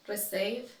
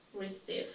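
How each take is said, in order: First: "Receive" as reh-SAYV; incorrect pronunciation. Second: "receive" as ri-SEEV; correct pronunciation. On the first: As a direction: say "Receive" with eh vowels. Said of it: "I will say each one incorrectly". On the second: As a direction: say "receive" with a long ee. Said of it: "then I'll say it correctly". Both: Shown as a demonstration.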